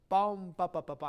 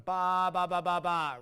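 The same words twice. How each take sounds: First: Loud "Bum" fading into "ba, ba, ba, ba"; "Bum" punched high, lighter triplet after; decaying note. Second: Every "ba" equally loud and held; loud, sustained, unvarying "ba" syllables; no decay. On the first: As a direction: hit "Bum" and let it decay. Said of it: "I'm decaying on the eighth note". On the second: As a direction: blare "ba, ba, ba, ba" without shape. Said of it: "I'm not going". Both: Shown as a demonstration.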